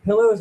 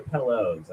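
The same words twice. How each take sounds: First: "Pillows" with a short i, as in pill; first way of saying it. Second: "pillows" with an eh, like pellows; second way of saying it. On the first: Comic unsure of the word, trying "Pillows" with an ih. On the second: Comic unsure of the word, trying "pillows" as pellows. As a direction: say "pillows" with the first vowel of pet. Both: Shown as a demonstration. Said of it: "I don't know how to say it".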